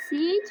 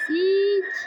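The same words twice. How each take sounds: First: Said in the usual way. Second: A louder, higher mock hiss of the word "Siç"; imitating Granny's hiss. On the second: Gamer copying what Granny says to viewers, mock creepy. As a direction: say "Siç" like the creepy grandma hissing. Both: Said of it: "Ne diyor bu ya?".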